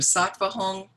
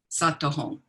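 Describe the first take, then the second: First: The V sound in the first word is pronounced. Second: The V sound in the first word is dropped. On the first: "I tend to say Om Vajra Sattva Hong, like that" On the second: "sometimes they don't pronounce the V in Sattva, so they have like Sato"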